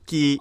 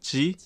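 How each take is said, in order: First: The word begins with a tense k sound. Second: The word begins with a soft j sound. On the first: This is a regional dialect pronunciation. "산동 지역 사람들은 지 발음을 못해. ... 지 발음을 끼라고 하는 거야" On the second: This is the standard pronunciation. "닭고기의 원래 표준어는 지거든요"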